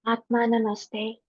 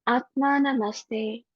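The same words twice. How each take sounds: First: Softer Atma Namaste, said humbly; very gentle. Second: Softer, slow Atma Namaste; very gentle. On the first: Acted. Meditation leader saluting all souls, soft and gentle. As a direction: let Atma Namaste fall softly. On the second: Shown as a demonstration. Teacher showing students the greeting, very gently. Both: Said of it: "very gently say".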